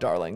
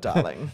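First: It is said in an American accent. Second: It is said in a British accent. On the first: The speaker calls it wrong. "You can't do that in an American, if I go" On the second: The speaker calls it right. "As opposed to a darling"

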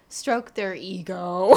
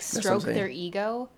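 First: The voice falls at the end of the phrase. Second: The voice rises at the end of the phrase. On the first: The speaker calls it right. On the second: The speaker calls it wrong.

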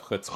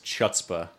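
First: The word begins with a throaty, rasping sound. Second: The word begins with a plain 'ch' sound. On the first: The speaker calls it right. "instead of chutzpah" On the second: The speaker calls it wrong. "when somebody says chutzpah"

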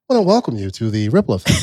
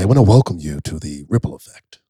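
First: It is said in a high-pitched voice. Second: It is said in a low radio DJ voice.

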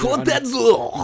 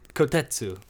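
First: A harsh, throaty, commanding put-on voice. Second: A soft, deferential put-on voice. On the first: The speaker plays a superior. "get the phlegm out of your throat whenever you're saying a name" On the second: The speaker plays a subordinate. "I said it with the Japanese underling"

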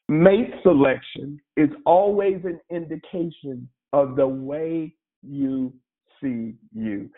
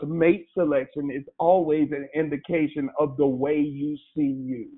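First: It is said very slowly. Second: It is said at a normal speed.

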